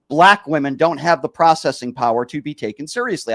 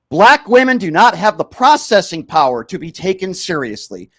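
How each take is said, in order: First: It is said at a normal pace. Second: It is said very slowly.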